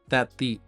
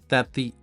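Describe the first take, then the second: The two takes are said the same way.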